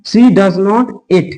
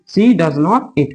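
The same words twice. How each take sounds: First: Slow dictation. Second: Said in the usual way. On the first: Shown as a demonstration. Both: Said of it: "ठीक है, eat।".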